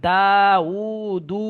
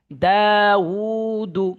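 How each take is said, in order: First: "দা উ দু" with all three vowels drawn out, the last one too; wrongly stretched ending. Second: "দাউদু" slow, DAA and UU held long, final DU short; stretch only long vowels. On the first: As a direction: demonstrate the mistake: hold the final "দু" as long as "দা" and "উ". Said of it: "এইভাবে যদি কেউ পড়েন". ("দা উ দু" তিনটাতেই ভুল টান) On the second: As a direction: hold the first two vowels of "দাউদু", then a quick short "দু". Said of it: "যেটা টান সেটা টানবেন". ("দাউদু" প্রথম দুইটায় টান, শেষে টান ছাড়া) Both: Shown as a demonstration.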